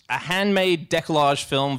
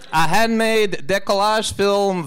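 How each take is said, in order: First: It is read in the speaker's own natural accent. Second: It is read in a put-on foreign accent. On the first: The speaker calls it right. "Maybe just read it in your own voice" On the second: The speaker calls it wrong. "I wasn't meaning the accent to really be the humorous element"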